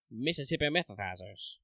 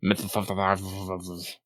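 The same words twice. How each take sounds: First: Mississippi methazers with a soft th lisp; slight lisp. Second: Slow lisped Methazers, s as th; slight lisp. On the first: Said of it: "I feel like it's important to say with a slight lisp". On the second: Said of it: "important to say with a slight lisp". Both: Shown as a demonstration.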